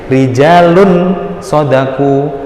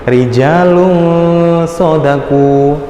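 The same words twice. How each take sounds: First: The n is pronounced as a clear n. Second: The n is blurred into a nasal ng. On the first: The reader does not know the rule. The speaker calls it wrong. "kita akan membaca dengan dengan cara yang biasa aja" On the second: The reader applies the rule. The speaker calls it right. "dibaca samar. Samarnya itu berupa ng tadi"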